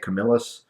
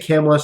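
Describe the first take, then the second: First: The name is said as Camillus. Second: The name is said as Camless. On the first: This is how some other people say it. "Some people say Camillus" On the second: This is the speaker's own habitual pronunciation. "I say Camless"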